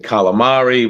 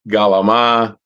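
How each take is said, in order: First: It is said fully, with every syllable and ending. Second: It is clipped, with softened consonants and no ending. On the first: "We don't say calamari" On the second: "we say galama"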